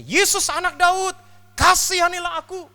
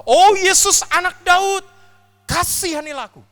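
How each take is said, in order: First: Slow, loud, high pleading cry; shouting again. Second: Full-force high cry of mercy; desperate shout. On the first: Beggar shouting again as Jesus walks on, slow loud cry. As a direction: drag out each word, begging louder. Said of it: "dia teriak lagi". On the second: Beggar's third cry to Jesus, loudest desperate shout. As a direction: scream it with everything left. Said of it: "dia terus teriak dan berkata". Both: Acted.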